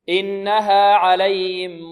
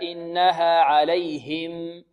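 First: The h sound in alayhim is weak and hidden. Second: The h sound in alayhim is clear and distinct. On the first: The speaker calls it wrong. "بعض طلبة القرآن يقول عليهم، إنها عليهم موصدة عليهم هكذا، وهذا خطأ" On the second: The speaker calls it right. "لابد من إظهار الهاء هكذا"

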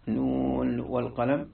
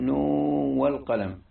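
First: The final n is pronounced clearly before the w. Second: The final n merges into the following w. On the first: "بالإظهار" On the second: "بالإدغام"

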